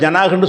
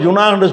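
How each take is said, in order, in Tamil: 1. முதல் உயிரெழுத்து திறந்த 'a' ஒலி. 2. முதல் உயிரெழுத்து வட்ட வடிவ 'u' ஒலி. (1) "அதை ஜனாகுண்டு சொல்லுவாங்கன்னு இருக்குது அரபுகளில்" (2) "ஒரு ஏரியாவில் ஜுனாகுண்டு பயன்படுத்தாமல்"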